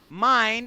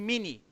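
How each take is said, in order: First: The vowel sounds like eye. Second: The vowel sounds like ee. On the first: The speaker calls it right. "eu falo mine" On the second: The speaker calls it wrong. "em vez de mini"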